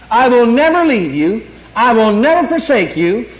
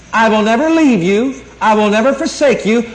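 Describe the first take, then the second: No difference in how they are said.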